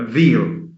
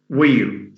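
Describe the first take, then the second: First: The word begins with a V sound. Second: The word begins with a W sound. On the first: The speaker calls it wrong. "is mispronounced as" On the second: The speaker calls it right. "wheel, W H E E L"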